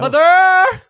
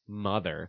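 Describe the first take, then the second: First: The word is exclaimed with strong force. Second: The word is said flatly without force. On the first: The speaker calls it right. "Because it has the exclamation point" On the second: The speaker calls it wrong. "You can't say"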